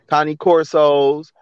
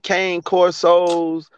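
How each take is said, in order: First: The first word is said as two syllables, 'connie'. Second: The first word is said as one syllable, 'cane'. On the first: The speaker calls it right. "It's Connie" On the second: The speaker calls it wrong. "I'm pronouncing it wrong"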